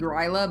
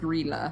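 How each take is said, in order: First: The first vowel sounds like 'eye'. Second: The first vowel sounds like 'ih'. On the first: The speaker calls it wrong. "I keep wanting to say Gryla" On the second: The speaker calls it right. "I looked up the pronunciation. It is Grilla"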